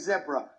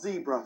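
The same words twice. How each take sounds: First: The word is said with a British pronunciation. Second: The word is said with an American pronunciation. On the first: This is how it is said in England. The speaker calls it right. "in England, we say zebra" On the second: This is how it is not said in England. The speaker calls it wrong. "not zebra"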